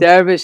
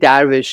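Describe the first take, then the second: First: The word is said in the Turkish way. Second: The word is said in the Persian way. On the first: "that's the Turkish pronunciation" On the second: "we say darvish in Persian"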